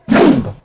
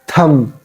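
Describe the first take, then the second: First: A final b sound is pronounced. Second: No final b sound is pronounced. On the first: The speaker calls it wrong. "It is incorrect way of pronouncing this word" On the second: The speaker calls it right. "B is silent here"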